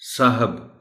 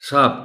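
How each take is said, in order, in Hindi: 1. इस शब्द में दो अक्षर हैं और यह hab पर खत्म होता है। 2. शब्द छोटा होकर एक अक्षर का हो जाता है, saab। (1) "साहब गलत है" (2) "साब कोई लफ्ज़ नहीं है"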